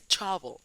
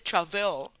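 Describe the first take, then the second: First: The stress is on the first syllable. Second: The stress is on the second syllable. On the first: The speaker calls it right. "tónica es tra" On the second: The speaker calls it wrong. "No se dice travel"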